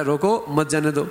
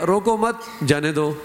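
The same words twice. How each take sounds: First: روکو on its own, then مت جانے دو together; pause after روکو. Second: روکو مت as one unit, then جانے دو; misread phrasing, break after مت. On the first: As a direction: split off روکو, group مت with جانے دو. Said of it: "اگر اس نے روکو پر وقف کیا". (روکو پر وقف، پھر مت جانے دو) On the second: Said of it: "صرف پڑھنے میں فرق ہو گیا". (روکو مت ملا کر، پھر جانے دو) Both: Shown as a demonstration.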